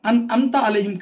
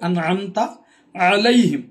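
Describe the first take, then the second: First: It begins with a plain vowel. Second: It begins with a throaty ain sound. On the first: The speaker calls it wrong. "కాదండి" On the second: The speaker calls it right. "ఐన్ అనే అక్షరం ఇక్కడ ఉంది"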